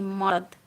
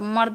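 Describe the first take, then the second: First: The word is said with a rustic village accent. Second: The word is said in standard Hindi. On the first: "मर्द ऐसे, थोड़ा देहाती उसमें mix करके" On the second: "मर्द होता है ना हिंदी में मर्द, तो मर्द नहीं"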